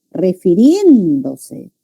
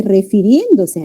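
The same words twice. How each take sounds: First: "Refiriéndose" very slow, "rien" stretched out; stress on rien. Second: Said in the usual way. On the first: Shown as a demonstration. Teacher showing the tonic syllable, "Refiriéndose" with long stressed "rien". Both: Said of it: "rien es la sílaba tónica".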